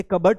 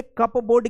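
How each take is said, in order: First: "कबर्ड" as KUB-erd, silent p; teacher's model "कबर्ड", reduced second vowel; correct pronunciation. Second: "कपबोर्ड" as cup-board, both parts sounded; spelling-reading of "कपबोर्ड", CUP plus BOARD; wrong pronunciation. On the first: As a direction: say कबर्ड in two short syllables, no p. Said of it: "इसे कबर्ड पढ़ा जाएगा". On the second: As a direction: say कपबोर्ड with the p and a long "o". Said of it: "कपबोर्ड क्यों नहीं बोलते". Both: Shown as a demonstration.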